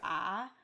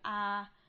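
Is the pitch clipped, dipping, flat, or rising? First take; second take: dipping; flat. First: The pitch falls and then rises again. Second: The pitch stays level and sustained. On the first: "falling and rising" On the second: "a sort of flat, almost like singing tone"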